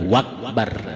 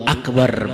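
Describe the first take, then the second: First: The word begins with a w sound. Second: The word begins with a glottal stop. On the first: The speaker calls it wrong. "bukan wakbar" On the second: The speaker calls it right. "hamzahnya itu nggak boleh diganti dengan waw"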